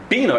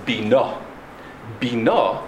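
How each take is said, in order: First: Bina with "Bi" stressed; stress on first syllable. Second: Bina with "na" stressed; stress on second syllable. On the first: Teacher explaining a request, Bina stressed at the start. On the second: Teacher naming the concept of understanding, Bina stressed at the end. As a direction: land on the final syllable of Bina. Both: Shown as a demonstration. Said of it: "with the emphasis on the earlier syllable".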